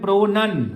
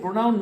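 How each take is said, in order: First: The second syllable has an 'uh' vowel. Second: The second syllable has an 'ow' vowel. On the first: The speaker calls it right. "এটাকে বলে প্রোনান" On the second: The speaker calls it wrong. "প্রোনাউন নয় এটা"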